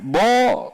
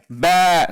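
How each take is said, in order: First: The vowel is thick and heavy, like o. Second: The vowel is thin and light, like a. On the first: The speaker calls it wrong. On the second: The speaker calls it right. "Ba seharusnya"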